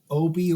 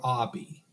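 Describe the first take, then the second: First: The first vowel is an 'oh' sound. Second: The first vowel is an 'ah' sound.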